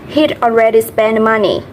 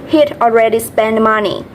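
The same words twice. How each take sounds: No difference in how they are said.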